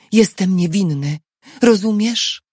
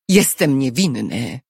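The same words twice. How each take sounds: First: Quick, urgent insistence; rushed plea to be understood; hurried. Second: Said in the usual way. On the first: A narrator's reading. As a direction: press the point in haste. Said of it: "powiedział szybko". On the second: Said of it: "oświadczył Tobiasz".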